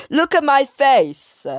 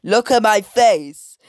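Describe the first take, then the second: First: High, loud mock yell; hammed-up shouted demand; all caps shout. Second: Higher, louder yell in a put-on voice; loud character shout; imitating a shout. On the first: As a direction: yell it in the character's face. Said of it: "in all caps". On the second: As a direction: shout at the girls as Miss Hattie. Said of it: "Miss Hattie shouted at the girls".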